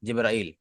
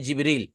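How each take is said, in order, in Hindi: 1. दूसरे अक्षर में 'a-ee' स्वर का क्रम है। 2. दूसरे अक्षर में लंबा 'ee' स्वर है। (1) "और अरबी में होता है जिब्राइल।" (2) "उर्दू में हम बोलते हैं जिब्रील, वो सही है।"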